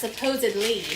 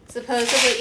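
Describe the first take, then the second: First: "supposedly" with a clear D before -ly; careful pronunciation. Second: "Supposedly" with the D dropped; casual mispronunciation. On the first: Correcting the word for co-host, D clearly sounded. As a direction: sound the D in "supposedly", suh-POH-zid-lee. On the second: Checking a word with co-host, D-less pronunciation. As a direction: say "Supposedly" without its D sound. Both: Shown as a demonstration. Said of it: "yeah, it's supposedly".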